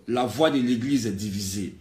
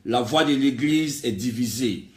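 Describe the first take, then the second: No difference in how they are said.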